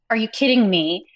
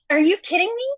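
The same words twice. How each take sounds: First: The line is said plainly with only the words. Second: Extra non-word noises are added around the words. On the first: "instead of saying" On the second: "I could be like"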